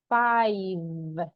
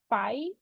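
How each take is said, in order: First: The final V sound is clearly pronounced. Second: The final V sound is left off. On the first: The speaker calls it right. "We need to pronounce the letter V" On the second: The speaker calls it wrong. "Can I say five? Just five? No, right?"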